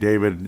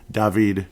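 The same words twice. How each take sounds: First: The name is said with an American pronunciation. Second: The name is said with a Czech pronunciation.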